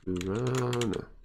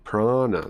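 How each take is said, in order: First: It sounds like piranha, with an extra vowel. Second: It sounds like prana, with no extra vowel. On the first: The speaker calls it wrong. "Almost like a piranha" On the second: The speaker calls it right. "It's prana. Not piranha"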